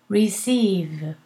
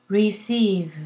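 The two takes are said the same way.

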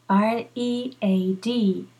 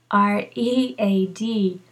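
The two takes are said the same way.

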